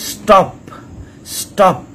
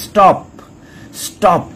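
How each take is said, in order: Both takes have the same delivery.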